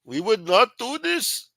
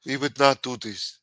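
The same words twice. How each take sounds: First: Put-on high, loud, slow Pakistani accent; drawn-out, high-pitched mock Pakistani; accidental Pakistani accent. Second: Imitated South African president's denial; mock South African politician, firmly denying; South African accent. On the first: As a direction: attempt a president's denial and land in a Pakistani accent. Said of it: "No, that was Pakistani". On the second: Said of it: "And the president w-, of South Africa was denying it".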